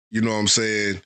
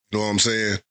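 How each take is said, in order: Both takes have the same delivery.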